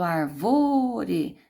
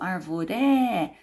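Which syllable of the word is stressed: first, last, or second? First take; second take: second; last. First: The stress is on the second syllable. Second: The stress is on the last syllable. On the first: "Eu não falo arvore" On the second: "nem falo arvoré"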